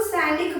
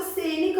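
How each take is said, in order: First: सैनिक said as "sai-nik", open two-matra vowel. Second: सैनिक said as "say-nik", with a closed e; closed e vowel. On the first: Teacher recalling her dictation for pupils, सैनिक with open "sai". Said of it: "मैंने सैनिक नहीं बोला आपको". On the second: Teacher showing pupils the other spelling, सैनिक said as "senik". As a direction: mispronounce सैनिक with a single-matra e sound. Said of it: "उसमें ए का साउंड आ रहा था". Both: Shown as a demonstration.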